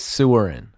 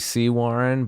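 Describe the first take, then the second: First: The name starts like 'sewer' then 'in'. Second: The name starts like 'see' then 'warren'. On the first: This is how the spelling reads. "if you look at it, it says Sewerin" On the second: This is the accepted local pronunciation. "it was technically C Warren"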